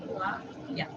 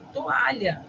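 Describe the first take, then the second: First: "Toalha" in separated syllables, lower and softer; "Toalha" broken up as to-a-lha; hiatus split. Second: Said in the usual way. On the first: Shown as a demonstration. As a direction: part the O from the A in "Toalha". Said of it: "vamos separar o I e o A". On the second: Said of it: "a gente tem hiato".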